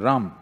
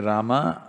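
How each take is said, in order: First: The final syllable is cut off. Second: The final syllable is fully pronounced. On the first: "they'll say ... the last syllable, they'll cut it off" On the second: "If you say"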